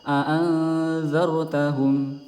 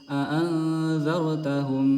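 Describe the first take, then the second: The two takes are said the same way.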